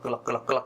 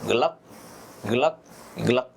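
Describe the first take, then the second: First: The words run together without any pauses. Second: There is a pause after each word. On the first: Drinking everything in one go. The speaker calls it wrong. "tidak langsung gelak gelak gelak gelak gelak semua" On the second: Drinking in three separate sips. The speaker calls it right. "tetapi ada jeda"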